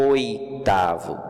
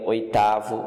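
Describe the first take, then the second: First: "Oitavo" drawn out slowly, falling, closed "oi"; slow demo of the closed "oi" in "Oitavo"; teacher slowly models "Oitavo" with its closed diphthong; stretched closed oi. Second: Said in the usual way. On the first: Shown as a demonstration. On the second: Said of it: "Observe que o som é fechado".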